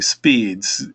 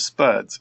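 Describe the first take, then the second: First: The vowel is a long 'ee' sound. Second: The vowel is a short 'uh' sound. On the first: "I've been saying speeds" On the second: "The spuds is spuds is pretty good"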